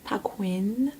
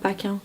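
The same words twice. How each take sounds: First: The name is said with an exaggerated English pronunciation. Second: The name is said with a plain French pronunciation. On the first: This is how others say the name. The speaker calls it wrong. "attention, l'accent de ouf" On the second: This is how everyone else says the name. The speaker calls it right. "comme tout le monde"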